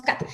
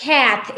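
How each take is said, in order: First: "cat" with a flat Spanish A; "cat" with a pure Spanish A; Spanish-reading cat. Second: "cat" with a vowel between A and E; "cat" in proper English; correct English cat. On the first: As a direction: say "cat" the way a Spanish speaker reads it off the page. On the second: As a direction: give "cat" the English short A, blending A and E. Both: Shown as a demonstration. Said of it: "La pronunciación correcta es cat".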